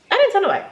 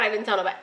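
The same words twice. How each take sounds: First: DIDN'T pushed high then falling; higher, stressing didn't; regretful emphasis. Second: Quiet admission. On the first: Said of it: "my dumb, stupid self". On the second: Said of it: "So I swear to God". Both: Real, not acted.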